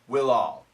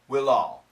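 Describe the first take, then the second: First: The words run together, sounding like 'will all'. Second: The words run together, sounding like 'will all'.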